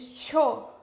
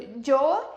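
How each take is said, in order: First: The word starts with an sh sound. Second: The word starts with a y sound. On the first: "eles cho ... eles falam mais chiado" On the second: "A gente falaria"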